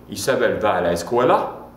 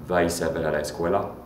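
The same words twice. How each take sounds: First: "escuela" rising sharply at the end; rising question tune. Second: Low, level tune with no big lift on "escuela"; kept flat. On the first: Teacher showing a question made by intonation, pitch rising on "escuela". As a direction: ask it by lifting the voice on "escuela". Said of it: "raising the intonation at the end". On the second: Teacher showing verb-first question, intonation kept fairly flat. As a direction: keep "Va Isabel a la escuela" level, without singing it. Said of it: "you keep it flat". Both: Shown as a demonstration.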